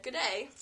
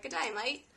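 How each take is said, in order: First: Put-on light Australian accent. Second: Hammed-up Aussie "Good day, mate" with rising end; Australian accent. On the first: Reading the supervisor's pin in a light Australian accent. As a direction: mimic an Aussie greeting. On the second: Quoting the Australian supervisor's pin in a mock Australian accent. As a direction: lean into the Aussie twang on "mate". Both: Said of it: "made one on her lanyard that said".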